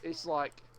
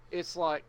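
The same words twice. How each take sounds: The two takes are said the same way.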